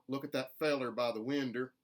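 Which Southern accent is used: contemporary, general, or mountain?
mountain. Fellow and window both end in er. "with an er on the ends of those words, which is distinctly mountain"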